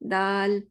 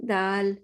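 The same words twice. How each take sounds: First: The vowel is said with an open mouth. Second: The vowel is said with an open mouth.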